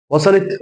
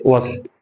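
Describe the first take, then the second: First: وصلت rising high at the end; high rising question on وصلت; checking question. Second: وصلت said as a settled statement; short closing statement on وصلت; confirming answer. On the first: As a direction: ask وصلت with pitch lifted. Asks, then answers himself. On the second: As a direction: answer وصلت without the questioning lift. Answers his own check. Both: Shown as a demonstration.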